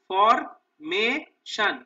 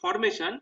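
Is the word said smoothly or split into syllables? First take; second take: split; smooth. First: The word is broken into separate syllables. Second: The word is said smoothly as one unit. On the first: "তিনটে সিলেবলে ভাগ করে নেবো" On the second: "একসঙ্গে যখন আমরা বলছি"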